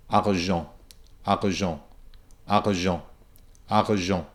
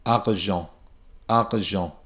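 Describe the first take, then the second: First: Argent with a breathy stopping R right in the middle; classic French R. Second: Argent with a pure ah then a back R; pure ah, soft back R, then jent; French argent. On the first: Teacher shows the classic French R in argent. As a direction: argent as ah, then a breathy catch, then jent. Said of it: "the classic French R". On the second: Teacher says argent one last time. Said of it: "I'll say it one last time". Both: Shown as a demonstration.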